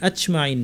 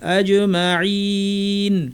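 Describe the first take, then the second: First: The j sound is released with audible air. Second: The j sound bounces cleanly without any air. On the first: The speaker calls it wrong. "অনেকে বলেন আচমাইন ... আচমাইনও ভুল" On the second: The speaker calls it right. "বাতাস ছাড়া কলকলা"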